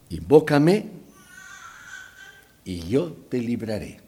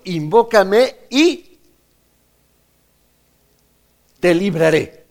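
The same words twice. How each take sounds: First: Said in the usual way. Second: Slow, loud, high proclamation of "Invócame y te libraré"; preacher booming God's words to the congregation; emphatic quote. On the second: Acted. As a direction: ring out "Invócame y te libraré" slowly, louder and higher. Quoting God's promise, preaching.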